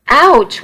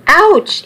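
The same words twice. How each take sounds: First: High, sharp ouch in pain; pained yelp. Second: Much higher ouch, yelped as he's hit again; the second blow hurts more, cry out higher. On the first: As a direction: yelp it as the cane hits. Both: Acted. Nana whacking Charlie with cane.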